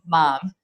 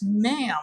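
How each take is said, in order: First: The vowel sounds like the one in 'mom'. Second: The vowel sounds like the one in 'cat'. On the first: "in the Philippines, you call it mom" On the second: "oh, it's ma'am"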